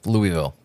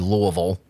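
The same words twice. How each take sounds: First: It is said the way non-Kentuckians say it. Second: It is said the way Kentucky locals say it.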